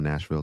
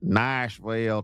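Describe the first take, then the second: First: It is said in his usual, non-Southern accent. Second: It is said in a Southern American accent.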